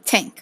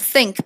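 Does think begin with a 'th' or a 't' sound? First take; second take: t; th. First: The word begins with a 't' sound. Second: The word begins with a 'th' sound. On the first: The speaker calls it wrong. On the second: The speaker calls it right.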